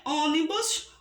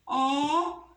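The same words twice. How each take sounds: First: Said in the usual way. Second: "ônibus" in three separate beats: ô, ni, bus; teacher dividing "ônibus" syllable by syllable; split into syllables. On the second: Shown as a demonstration. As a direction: break "ônibus" apart, pausing after each syllable. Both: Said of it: "Vamos separar a palavrinha".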